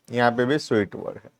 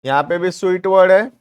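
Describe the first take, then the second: First: Quick soft repeat. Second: Said in the usual way. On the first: Shown as a demonstration. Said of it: "quick soft repeat". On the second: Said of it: "points out common word".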